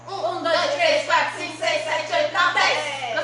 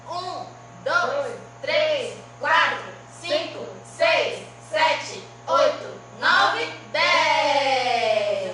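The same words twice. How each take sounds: First: The counting is at a faster pace. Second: The counting is at a slower pace.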